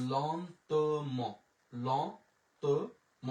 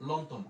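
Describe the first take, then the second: First: লন্তম very slowly, lon - to - mo; syllable by syllable. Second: লন্তম in one quick go; joined up. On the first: Teacher sounds out the word for learners, very slow syllables. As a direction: stretch each syllable of লন্তম apart. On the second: Teacher puts the word together for learners, syllables joined. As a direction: run lon-to-mo together as লন্তম. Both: Shown as a demonstration.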